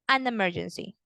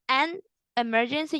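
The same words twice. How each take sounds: First: The n runs straight into emergency. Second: The n is kept apart from emergency. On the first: The speaker calls it right. "You combine the N with the E" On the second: The speaker calls it wrong. "instead of saying an emergency"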